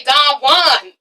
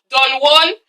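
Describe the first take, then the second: First: "Don Juan" with a showy non-English accent; exaggerated, affected "Don Juan"; put-on name pronunciation. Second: "Don Juan" in a plain English accent; unadorned English-accented "Don Juan". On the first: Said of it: "That's why I have to say". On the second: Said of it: "when I say it in my English accent". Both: Shown as a demonstration.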